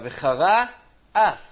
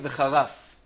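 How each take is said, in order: First: The two words are clearly separated. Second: The two words run together into one. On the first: It keeps the meaning of the verse. The speaker calls it right. "אלא" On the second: It sounds like a word meaning insult and blasphemy. The speaker calls it wrong. "לא להגיד"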